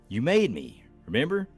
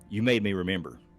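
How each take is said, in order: First: A break separates 'remember' as a question. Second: It runs together as one unbroken statement. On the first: Don't you recall what happened between us? The speaker calls it right. "I didn't understand the inflection of, of his voice" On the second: Your action caused me to recall something. The speaker calls it wrong. "I thought he was saying"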